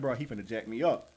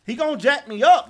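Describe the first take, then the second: First: Nervous mutter. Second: Higher and louder fear; panicky exclaim. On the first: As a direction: lower and softer worry. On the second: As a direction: cry it out in alarm. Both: Real, not acted. Waiting with back turned.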